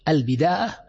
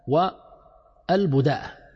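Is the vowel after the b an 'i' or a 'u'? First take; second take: i; u. First: The vowel after the b is i. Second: The vowel after the b is u. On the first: "الأصل كسر الباء" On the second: "وضمها لغة تصح"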